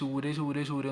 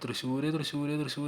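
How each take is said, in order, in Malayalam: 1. പേരിന്റെ അവസാന ഭാഗം മാത്രമേ വിളിക്കുന്നുള്ളൂ. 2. പേര് മുഴുവനും ഓരോ തവണയും വിളിച്ചു പറയുന്നു. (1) "ശൂര് ശൂര് ശൂര് എന്ന് മാത്രമേ ഉണ്ടാവുള്ളൂ" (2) "തൃശ്ശൂർ തൃശ്ശൂർ തൃശ്ശൂർ എന്ന് ഇങ്ങനെ വിളിച്ച് പറയും"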